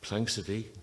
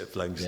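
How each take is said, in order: First: An extra vowel is added, giving three syllables. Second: No extra vowel is added, giving two syllables. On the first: The speaker calls it wrong. "nobody could pronounce the word Planxty. People used to call it Planxity" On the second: The speaker calls it right. "It took a few years before people could say Planxty"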